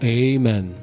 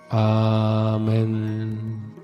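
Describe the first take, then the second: First: It is said in the American way. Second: It is said in the older, non-American way.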